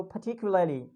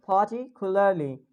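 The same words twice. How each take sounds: First: "particularly" with British dropped R; British accent. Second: "Particularly" said the American way; American accent. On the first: Teacher gives the British take for comparison, British accent. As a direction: drop the R in "particularly", British style. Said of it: "if we'll say in British". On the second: Teacher gives the American take for comparison, American accent. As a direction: sound the R in "Particularly", American style. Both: Shown as a demonstration.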